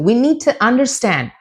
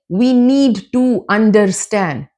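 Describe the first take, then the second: First: The words run together with sounds dropped. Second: Each word is said fully and separately. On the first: The speaker calls it right. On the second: The speaker calls it wrong.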